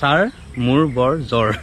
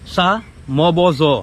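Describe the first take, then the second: First: The r sounds are clearly pronounced in the words. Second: The r sounds are dropped from the words. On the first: "মানে" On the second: "ৰটো উচ্চাৰণ কৰা নাই"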